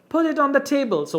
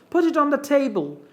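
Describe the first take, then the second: The two takes are said the same way.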